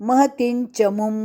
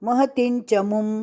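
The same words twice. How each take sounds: No difference in how they are said.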